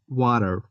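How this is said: It is said with an American English accent. "In American accent, I'm not sure, but maybe it's like water"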